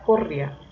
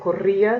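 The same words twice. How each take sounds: First: The i is unstressed and glides into the a. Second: The i carries the stress as its own syllable. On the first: The speaker calls it wrong. "si no se la coloco suena corría" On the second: The speaker calls it right. "debe tener tilde en la i"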